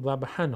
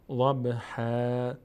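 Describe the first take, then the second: First: The word ends with an n sound. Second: The word ends with a long a vowel. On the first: The reading continues on without stopping. "اگر ادامه بدیم ضبحا خوانده میشه" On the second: The reader stops at this word. "وقتی که بخوایم توقف بکنیم چی میشه؟ میشه ضبحا"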